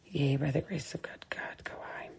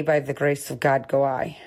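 First: Breathy whispered repeat. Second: Said in the usual way. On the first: Real, not acted. Repeating the blessing to herself, whispered. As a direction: whisper the line again. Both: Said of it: "whispered repeat".

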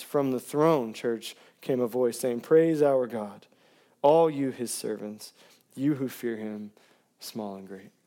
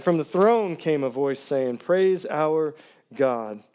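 First: Slow, low, with weighty pauses; solemn slow reading. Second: Said in the usual way. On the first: Acted. Preacher has church listen to the throne's voice, solemn and slow. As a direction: let each phrase settle, dropping softer to the end. Rereads verse after "Listen to this.

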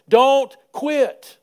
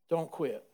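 First: Loud, high Don't quit, "Don't" hit hard; shouted command. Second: Soft echo. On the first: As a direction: thunder "Don't quit" from the pulpit. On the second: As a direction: drop to a near hush for "Don't quit". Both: Shown as a demonstration.

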